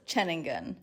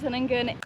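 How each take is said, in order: First: The name begins with a ch sound. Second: The name begins with an s sound. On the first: The speaker calls it right. "it's actually pronounced Cheningan" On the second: The speaker calls it wrong. "We say it wrong a lot"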